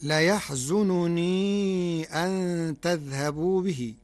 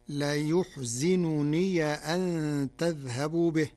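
First: Slow, raised recitation of ليحزنني with a fatha on ya; Hafs reading. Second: ليحزنني said as yuḥzinunī, with u on the ya and i on the za; Warsh reading. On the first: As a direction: recite ليحزنني as layaḥzununī, slowly. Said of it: "قرأ ورش كلمة ليحزنني". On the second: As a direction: recite ليحزنني with yu and zi. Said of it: "بضم الياء وكسر الزاي". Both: Shown as a demonstration.

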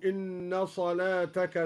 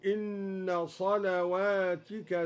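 First: Said in the usual way. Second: صلواتك with a waw after the lam and a kasra on the ta, salawatika; plural reading. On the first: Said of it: "بواو بعد اللام". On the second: Shown as a demonstration. Teacher shows al-Duri's plural reading. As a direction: recite صلواتك in the plural, slowly. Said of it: "وكسر التاء على الجمع هكذا".

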